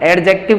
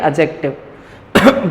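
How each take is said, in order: First: The d sound is pronounced before the j. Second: The d sound is silent before the j. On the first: The speaker calls it wrong. "एडजेक्टिव नहीं" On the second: The speaker calls it right. "उसमें डी को बोला नहीं जाता"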